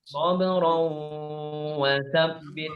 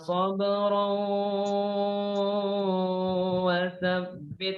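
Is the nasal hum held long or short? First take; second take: short; long. First: The nasal hum is held for two beats. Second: The nasal hum is held far too long. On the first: The speaker calls it right. "Adanya dua harokat" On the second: The speaker calls it wrong. "itu kepanjangan"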